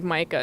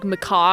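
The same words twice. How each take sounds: First: Micah said as MY-kuh; long-i pronunciation. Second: Macaw said as muh-KAW; macaw-like pronunciation. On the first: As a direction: say Micah with a long i, stress up front. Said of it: "it's not pronounced like Micah". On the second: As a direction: stress the second syllable of macaw, open vowel. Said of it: "pronounced like macaw or something". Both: Shown as a demonstration.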